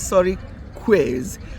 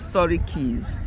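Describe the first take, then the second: First: The second part sounds like 'quiz'. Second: The second part sounds like 'keys'. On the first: The speaker calls it wrong. "you can say sorry quiz, but no" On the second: The speaker calls it right. "it's sorry keys"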